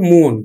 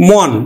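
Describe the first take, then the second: First: মন said with closed o, মোন; o-kar pronunciation. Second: মন with open ɔ, mɔn; open spelled vowel. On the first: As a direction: round the vowel of মন to mon. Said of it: "আমরা উচ্চারণ করি কিন্তু". (ও-কার দিয়ে মোন) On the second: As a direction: say মন as written, no o-kar. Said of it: "এই মনটাকে আমরা উচ্চারণ". (অ-ধ্বনি দিয়ে মন) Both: Shown as a demonstration.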